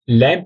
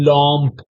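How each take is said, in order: First: The vowel is an open 'a', as in 'lamp'. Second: The vowel is a nasal, rounded 'o' sound. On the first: The speaker calls it wrong. "लैंप नहीं बोलना है" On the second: The speaker calls it right.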